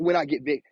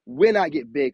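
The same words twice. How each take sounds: First: Said in the usual way. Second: "when" stressed with certainty. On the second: Real, not acted. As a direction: punch the word "when", a bit louder. Correcting his own if to when.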